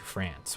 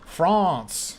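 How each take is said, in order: First: France is said with an American pronunciation. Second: France is said with a non-American pronunciation. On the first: "which is how Americans say it" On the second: "He's like, oh"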